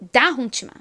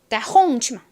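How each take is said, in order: First: The stress is on the first syllable. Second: The stress is on the second syllable. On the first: "다만 엄청 크게 들리고 뒤에 홍치마 이 부분은 굉장히 약하게" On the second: "홍만 강하게 빡 들리고"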